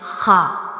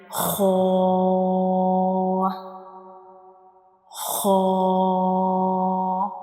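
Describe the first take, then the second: First: The sound is thin and spills out. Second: The sound is thick and fills the mouth. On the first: The speaker calls it wrong. "some people read it like ha. So in this case the sound spills out, but this is totally wrong" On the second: The speaker calls it right. "we read it like ho ho"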